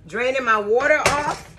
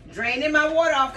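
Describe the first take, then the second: First: Repeating it with a laugh. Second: Said in the usual way. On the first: Real, not acted. Cook amused at her own words to viewers, laughing. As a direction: chuckle through the phrase. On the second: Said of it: "Draining my water off (repeated laughing)".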